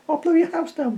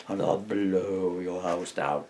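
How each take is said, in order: First: Quick, high falsetto; little pig quoting. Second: Slow, drawn-out menace with stretched blow; menacing wolf threat. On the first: Pig reminds wolf of the line done, high falsetto. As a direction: toss the line off in a piglet squeak. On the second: Wolf threatens the pigs' house, slow menace. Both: Acted.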